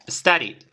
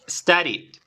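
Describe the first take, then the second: The two takes are said the same way.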